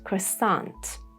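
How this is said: It is said in an American accent.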